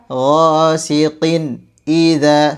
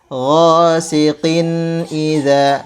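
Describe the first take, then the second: First: The voice breaks off between the two words. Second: The voice runs on between the two words. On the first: The speaker calls it wrong. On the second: The speaker calls it right. "Jadi suaranya tetap bersambung"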